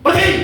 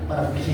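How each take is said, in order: First: It is said in an angry tone. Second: It is said in a calm tone. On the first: The speaker orders someone to leave. "Itu ekspresi apa itu? Marah" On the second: The speaker simply reports that someone has gone out. "Beda dengan bapakmu kemana, pergi, beda"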